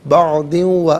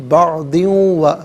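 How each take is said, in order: Both takes have the same delivery.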